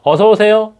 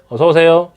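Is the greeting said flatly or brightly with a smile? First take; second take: brightly; flatly. First: It is said higher and brightly, smiling. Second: It is said flatly, without warmth.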